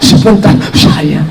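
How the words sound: The voice is breathy, soft and drawn out.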